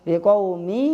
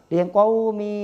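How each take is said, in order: No difference in how they are said.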